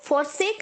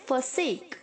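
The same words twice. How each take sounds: First: The first syllable has a full 'for' vowel. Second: The first syllable is a reduced 'fer' sound. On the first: The speaker calls it wrong. "आपको फॉरसेक नहीं बोलना है" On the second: The speaker calls it right. "एफ ई आर की तरह"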